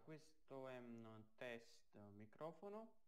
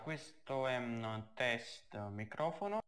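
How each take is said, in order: First: The voice is plain, with no boosting effect. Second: The voice is effect-boosted to maximum volume. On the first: "adesso senza l'effetto" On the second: "come ho amplificato al massimo il volume"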